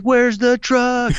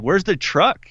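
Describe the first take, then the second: First: High, drawn-out mock yell; stretched, pleading shout; wailed question. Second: Raised pitch, retold bewilderment; mildly incredulous, voice lifted; puzzled question. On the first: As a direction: holler it back in desperate disbelief. Second take, wailed back at Ranger. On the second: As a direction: ask it baffled, without shouting. First, milder take of question.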